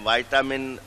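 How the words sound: It is said with an American pronunciation. "अमेरिकन"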